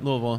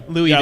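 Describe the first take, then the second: First: The name is said the local way. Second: The name is said the outsider way. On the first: The speaker calls it right. "I know how to pronounce it properly" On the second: The speaker calls it wrong. "instead of"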